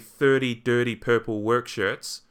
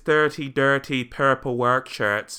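First: It has a general New Zealand accent. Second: It has a Southland accent with rolled r.

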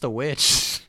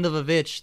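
First: The word starts with a plain 'w' sound. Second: The word starts with an extra 'vav' sound. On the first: "I think it's just the witch" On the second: "spot-on, fucking authentic, old English pronunciation"

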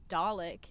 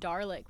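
First: The first syllable has no R sound. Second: The first syllable has an R sound. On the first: This is the actual name. The speaker calls it right. "when it was" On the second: This is how the name was misheard. The speaker calls it wrong. "we both collectively thought that they were saying"

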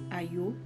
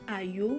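First: The word stays on a lower pitch. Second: The word goes up into high notes. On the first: The speaker calls it right. "c'est plutôt Ayo" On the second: The speaker calls it wrong. "monter un peu là dans les notes hautes"

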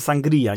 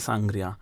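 First: The stress is on the second syllable. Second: The stress is on the first syllable. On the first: The speaker calls it right. "nazywa się ono sangria" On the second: The speaker calls it wrong. "nie sangria"

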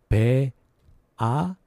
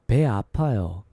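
First: It is said slowly. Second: It is said fast.

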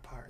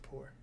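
First: The syllable has an 'ar' vowel, like 'par'. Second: The syllable has an 'oor' vowel, like 'poor'. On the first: The speaker calls it wrong. "It's not par" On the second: The speaker calls it right. "it's poor"

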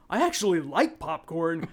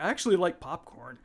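First: The line has an odd, awkward inflection. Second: The line has a smooth, natural inflection. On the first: The speaker calls it wrong. "the way this guy says the line is the wrong way. The way the inflection" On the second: The speaker calls it right. "But I think he should have been like"

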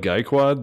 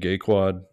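First: The first syllable sounds like guy. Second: The first syllable sounds like gay. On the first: The speaker calls it right. "it's more like guy quad the way they say it" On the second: The speaker calls it wrong. "The way you pronounce that sounds like such a like 1990s junior high insult"

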